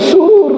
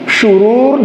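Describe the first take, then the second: First: The word begins with an s sound. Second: The word begins with a sh sound. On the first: It gives a very different meaning. The speaker calls it wrong. "ini pakai sin" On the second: It means evil or wickedness. The speaker calls it right. "Ini pakai shin"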